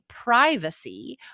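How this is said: It is said with an American pronunciation. "we say privacy"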